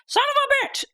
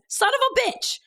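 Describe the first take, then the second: First: It is said in an imitation of Kristen's voice. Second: It is said in the speaker's normal voice.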